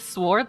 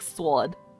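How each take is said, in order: First: The word is said in a neutral accent. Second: The word is said in a Brooklyn-like accent. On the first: The speaker calls it right. "like a normal person" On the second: The speaker calls it wrong. "weird fucking Brooklyn ass accent"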